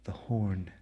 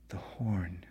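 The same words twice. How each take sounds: The two takes are said the same way.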